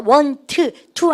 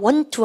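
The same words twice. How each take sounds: First: The two words are split with a break. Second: The two words run together as one. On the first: The speaker calls it wrong. "want, to 안 그러고요" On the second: The speaker calls it right. "하나로 여러분들 발음하시면 돼요"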